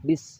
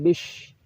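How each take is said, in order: First: The word ends in a plain s sound. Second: The word ends in an sh sound. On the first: The speaker calls it right. "Bis cukup" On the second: The speaker calls it wrong. "bukan bish"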